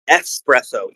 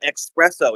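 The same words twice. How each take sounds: First: The first syllable sounds like 'ess'. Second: The first syllable sounds like 'ex'. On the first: The speaker calls it right. "It is espresso. E S S" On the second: The speaker calls it wrong. "It is not espresso"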